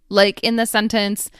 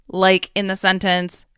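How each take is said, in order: No difference in how they are said.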